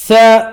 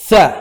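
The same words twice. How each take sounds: First: "ثاء" as a long thaa, higher and louder; long vowel. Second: Said in the usual way. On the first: Shown as a demonstration. Teacher spelling for students, long "ثاء". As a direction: hold the aa of "ثاء". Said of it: "مد ألف". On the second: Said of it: "ثاء بفلي".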